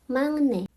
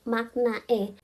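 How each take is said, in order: First: The middle consonant is a nasal ng sound. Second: The middle consonant is a clear k sound. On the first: It follows the final-consonant rule. The speaker calls it right. "menurut aturan bacim itu bacanya mangne" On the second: It follows the romanized spelling. The speaker calls it wrong. "di romajinya tuh tulisannya makna e"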